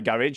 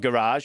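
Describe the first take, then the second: First: It is said in a non-American accent. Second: It is said in an American accent.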